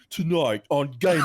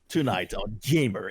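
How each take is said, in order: First: It is said in a British accent. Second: It is said in a non-British accent. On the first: The speaker calls it right. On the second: The speaker calls it wrong.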